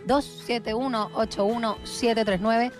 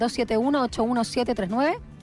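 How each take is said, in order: First: The number is read more slowly. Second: The number is read at normal speed.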